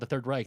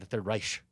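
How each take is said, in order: First: Reich is said with an American pronunciation. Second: Reich is said with a German pronunciation. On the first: The speaker calls it wrong. "the Nazis were not called the Third Reich" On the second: The speaker calls it right. "they're the Third Reich"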